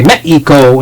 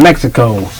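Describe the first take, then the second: First: The x is said as an h sound. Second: The x is said as a ks sound. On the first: "X's are H's, so you would say" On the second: "instead of"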